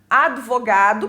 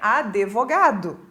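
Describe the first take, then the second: First: No vowel is added after the d. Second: An e vowel is added after the d. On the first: The speaker calls it right. "que é o correto" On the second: The speaker calls it wrong. "e não tem esse e"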